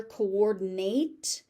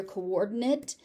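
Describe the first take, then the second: First: Coordinate with a full "nate" ending; verb pronunciation. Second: Coordinate with a reduced "nit" ending; noun pronunciation. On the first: Teacher on the more frequent verb coordinate, ending "nate". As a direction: say "coordinate" with a long AY at the end. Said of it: "more frequently used as a verb". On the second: Teacher on the other form you may hear, coordinate ending "nit". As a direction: say "coordinate" with a short, unstressed last vowel. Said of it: "you may also hear". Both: Shown as a demonstration.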